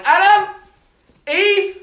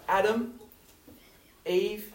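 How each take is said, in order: First: Much higher, much louder angry call of the names; angry parent. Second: Gentle call. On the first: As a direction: bellow the names like a furious parent. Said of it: "like a parent that's angry". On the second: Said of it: "he doesn't get angry". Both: Retold or imitated.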